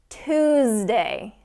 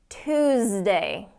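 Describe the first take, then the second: The two takes are said the same way.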